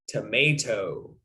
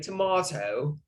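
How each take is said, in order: First: It is said with an American accent. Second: It is said with a British accent. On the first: "But I'm American, so I say tomato" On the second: "or if you're British, you might say tomato"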